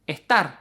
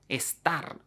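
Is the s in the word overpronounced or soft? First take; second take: soft; overpronounced. First: The s is soft, breathy and weakened. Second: The s is fully and strongly pronounced. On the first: This is how speakers really say it. "S aspirada" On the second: This is how speakers say it when asked to pronounce carefully. "they would probably overpronounce them"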